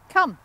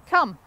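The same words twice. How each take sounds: First: Loud, higher call of come; firm recall command. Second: Loud, sharp call of come; firm recall command. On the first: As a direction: snap the dog back to you. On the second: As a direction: call the dog in with one firm word. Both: Shown as a demonstration. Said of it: "this time I'm gonna put the word with it".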